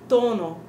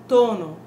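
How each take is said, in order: No difference in how they are said.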